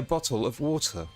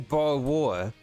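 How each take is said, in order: First: It is said in a posh British accent. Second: It is said in a rough British accent.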